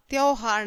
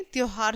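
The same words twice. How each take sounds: First: "त्योहार" with AU for O; wrong diphthong. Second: Said in the usual way. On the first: Shown as a demonstration. Teacher rejects a misspelling, "त्योहार" as tyauhaar. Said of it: "त्योहार नहीं". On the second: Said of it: "त्योहार सही है".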